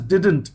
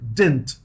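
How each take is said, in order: First: The d sound before n is pronounced. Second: The d sound before n is dropped. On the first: The speaker calls it wrong. "We do not do it, tell it as didn't. Didn't is a wrong pronunciation" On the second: The speaker calls it right. "We tell it didn't. ... एक डी को हटा देना है"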